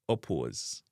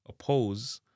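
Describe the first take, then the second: First: "oppose" as "o-puoz"; Jamaican pronunciation. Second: "oppose" as "uh-pohz"; English pronunciation. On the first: Teacher giving the Jamaican version, "oppose" as "o-puoz". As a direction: give oppose a hard O, then "uo". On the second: Teacher giving the English word first, "oppose" with "oh" glide. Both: Shown as a demonstration. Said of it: "oppose in a Jamaican".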